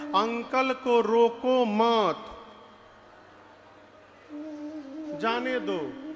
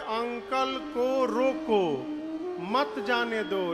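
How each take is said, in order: First: The pause comes after 'मत'. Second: The pause comes before 'मत'.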